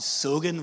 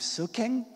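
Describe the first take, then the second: First: The middle consonant is a voiced G sound. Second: The middle consonant is a voiceless K sound. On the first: "we swap out that K for a G" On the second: "we don't say"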